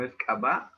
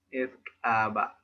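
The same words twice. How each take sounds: First: CABA with stress on the final "ba", rising; stressed last syllable. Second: CABA level, long first "a", both syllables equal; no stressed syllable. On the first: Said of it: "no es caba". ("caba" aguda, con acento en la última sílaba) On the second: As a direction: say "caba" evenly, stretching the first vowel. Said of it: "no hay sílaba tónica". ("caba" pareja, con a larga y sin sílaba tónica) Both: Shown as a demonstration.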